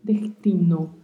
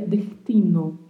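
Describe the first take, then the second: First: The S sounds like a very soft R. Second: The same.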